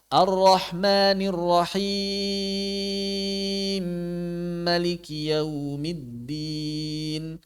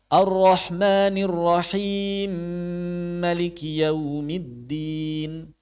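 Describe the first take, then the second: First: The long vowel in Rahim is held moderately. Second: The long vowel in Rahim is held briefly. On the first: "boleh dibaca empat" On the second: "boleh dibaca dua"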